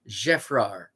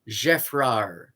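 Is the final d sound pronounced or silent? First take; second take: silent; silent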